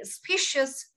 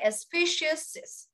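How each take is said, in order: First: The word ends with a single s sound. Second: The word ends with an extra 'ez' syllable. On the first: The speaker calls it right. "We say species" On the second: The speaker calls it wrong. "we don't say species"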